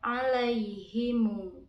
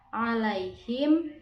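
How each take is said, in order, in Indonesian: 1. Kata ini berakhir dengan mu yang dipanjangkan. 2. Kata ini berakhir dengan m biasa.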